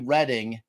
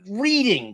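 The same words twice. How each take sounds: First: The first vowel is a short e, like red. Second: The first vowel is a long ee, like reed. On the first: "R E D D I N G would be Reading" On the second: "it's literally reading because"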